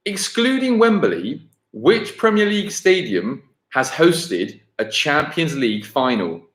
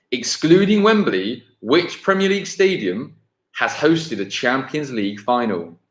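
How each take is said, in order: Both takes have the same delivery.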